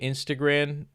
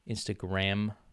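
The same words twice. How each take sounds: First: The final consonant sounds like an n. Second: The final consonant is a clear m. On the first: "I've been calling it Instagram like unironically" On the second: "m Instagram"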